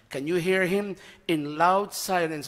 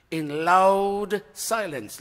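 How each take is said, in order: First: Said in the usual way. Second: "in loud silence" drawn out slowly, "loud" leaned on; slow stress on loud silence. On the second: Shown as a demonstration. Preacher savoring a paradox for the congregation, slowed stress. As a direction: stretch out "loud silence" word by word. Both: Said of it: "Listen, listen to the contrasting terms".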